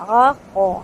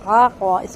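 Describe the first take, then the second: Both takes have the same delivery.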